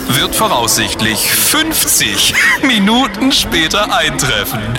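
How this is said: It is said with gloating glee in the voice. The announcer enjoys the passengers' misfortune. "Vergiss dabei niemals die Schadenfreude in deiner Stimme"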